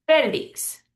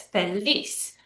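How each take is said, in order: First: Felix as FE-lix; stress on first syllable. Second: Feliz as fe-LIZ; stress on last syllable. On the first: Teacher showing the man's name, Felix stressed on FE. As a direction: lean on FE, let -lix drop in Felix. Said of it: "but we pronounce it Felix". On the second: Teacher contrasting word with name, feliz stressed on LIZ. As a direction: lean on the final syllable of feliz. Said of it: "is pronounced like this". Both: Shown as a demonstration.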